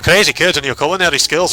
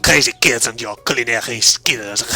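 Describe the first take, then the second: First: It is spoken in a Scottish-sounding accent. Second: It is spoken in a French-sounding accent. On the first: "That's actually going Scottish" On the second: "give him the French accent"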